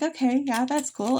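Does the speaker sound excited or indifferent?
indifferent. The tone is flat and unenthusiastic. The idea did not seem interesting at first.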